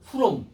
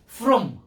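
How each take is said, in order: First: The word is pronounced carelessly. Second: The word is pronounced carefully. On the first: The speaker calls it wrong. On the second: The speaker calls it right.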